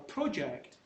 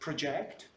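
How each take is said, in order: First: The stress is on the first syllable. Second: The stress is on the second syllable. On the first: It is used as a noun. "is a noun" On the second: It is used as a verb. "is a verb"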